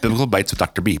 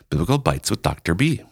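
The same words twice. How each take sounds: First: The phrase is said fast. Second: The phrase is said slowly.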